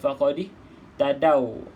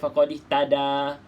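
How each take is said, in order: First: The word ends with an 'aw' sound. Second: The word ends with a plain 'a' sound. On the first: The speaker calls it right. "perhatikan dekat sini bacaan dia faqadih tadau" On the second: The speaker calls it wrong. "kita tak baca faqadih tada"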